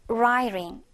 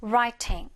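First: "writing" with the t softened to a quick r-like flap; flapped American t in "writing"; American pronunciation. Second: "writing" with a clearly released t; crisp British t in "writing"; British pronunciation. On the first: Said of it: "미국식으로 발음하면". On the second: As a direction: keep the t alive in "writing", no flap. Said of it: "영국식으로 발음을 한다면". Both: Shown as a demonstration.

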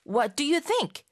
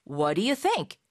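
First: Said in the usual way. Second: "What do you" run together as "whaddya" before "think"; casual linked "What do you think", no separate t; quicker linked pronunciation. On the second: Shown as a demonstration. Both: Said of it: "조금 더 빨리 발음하면".

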